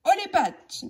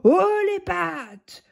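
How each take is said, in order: First: High, hopeful stick-up call; eager holdup line. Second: Slow, drawn-out menacing command; terrible icy voice. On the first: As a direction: try to sound tough but too eager. Billy tries his holdup line. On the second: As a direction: freeze the fox with cold menace. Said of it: "d'une voix terrible, froide comme la glace". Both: Acted.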